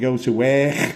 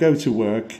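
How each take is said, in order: First: It is said in a Liverpool accent. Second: It is said in a standard English accent. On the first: The speaker calls it right. "you go to work" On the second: The speaker calls it wrong. "you don't go to work"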